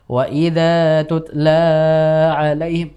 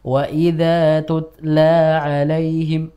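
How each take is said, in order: First: The vowel of 'la' is stretched too long. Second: The vowel of 'la' is held two counts. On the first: The speaker calls it wrong. "Sudah kepanjangan" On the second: The speaker calls it right. "Dua harokat saja"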